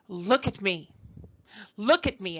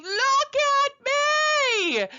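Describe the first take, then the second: First: Said in the usual way. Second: High, drawn-out scream, much higher and louder; retold scream. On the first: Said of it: "And she kept saying". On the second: Little girl in a big dress screaming for attention, high drawn-out scream. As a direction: wail it out like a child desperate to be seen. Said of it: "finally she was screaming".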